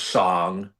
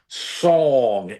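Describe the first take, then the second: First: It is said in a standard accent. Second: It is said in a Philadelphia accent. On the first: The speaker calls it right. "instead of song" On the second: The speaker calls it wrong. "it comes out in different words like song"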